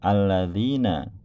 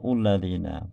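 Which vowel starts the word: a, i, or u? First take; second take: a; u. First: The word begins with an 'a' vowel. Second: The word begins with a 'u' vowel. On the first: The speaker calls it right. "itu pasti hamzah wasolnya dibaca fathah" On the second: The speaker calls it wrong. "tidak mungkin kita membaca"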